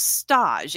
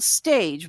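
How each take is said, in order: First: It sounds different from the everyday English word. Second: It sounds like the everyday English word. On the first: "the way they pronounce it" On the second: "spelled stage"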